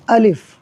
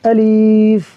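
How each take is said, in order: First: Both vowels are kept short. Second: The second vowel is drawn out long. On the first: The speaker calls it right. "Simple सा पढ़ देना है अलिफ़, किसी चीज़ को नहीं खींचना" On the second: The speaker calls it wrong. "या फिर कर देंगे अलीफ़, लाम को खींच देंगे"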